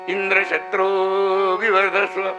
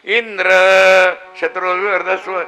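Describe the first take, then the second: First: Indra is said with a low, unraised pitch. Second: Indra is said with a high, raised pitch. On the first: A son would be born who kills Indra. "इंद्र शब्द जर त्यांनी अनुदात्त म्हटला असता" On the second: A son would be born who is killed by Indra. "इंद्र शब्द उदात्त करून दिला"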